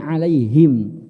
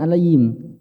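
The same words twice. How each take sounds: First: The h sound is clear from the throat. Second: The h sound is weak or unclear. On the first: The speaker calls it right. "Pastikan ada h, ada getaran di sini" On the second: The speaker calls it wrong. "bukan alaihim"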